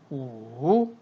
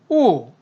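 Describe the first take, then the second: First: The pitch dips low then rises. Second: The pitch falls sharply from high to low. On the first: "삼성일 때는" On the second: "사성일 경우에는"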